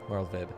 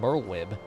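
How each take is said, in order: First: The middle consonant is a V sound. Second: The middle consonant is a W sound. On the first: The speaker calls it right. "I'm pretty sure you have to say it with a V" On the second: The speaker calls it wrong. "Which sounds much better than Merlwib"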